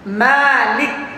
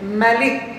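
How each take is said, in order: First: The first vowel after m is held long. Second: The first vowel after m is kept short. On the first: "mimnya panjang" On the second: "mimnya pendek"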